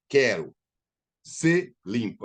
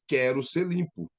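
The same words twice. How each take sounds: First: There is a pause after 'Quero'. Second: It runs straight on with no pause.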